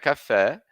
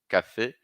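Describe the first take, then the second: First: The final vowel is an open e. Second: The final vowel is a closed e. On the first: The speaker calls it wrong. "Não é café" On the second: The speaker calls it right. "esse acento agudo traz o som E"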